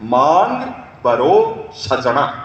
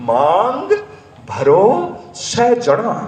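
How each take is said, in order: First: The line is spoken plainly, without affectation. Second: The line is spoken with an affected, showy manner. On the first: The speaker calls it right. "तीन शब्द को dialogue" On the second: The speaker calls it wrong. "अदासी बोली बोली"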